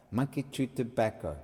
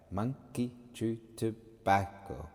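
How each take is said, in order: First: Said in the usual way. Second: "monkey chew tobacco" slowly, a gap between syllables. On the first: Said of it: "the clue is in monkey chew tobacco". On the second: Shown as a demonstration. Teacher dividing the words to count subdivisions, slow and separated syllables. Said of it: "just logically dividing those words".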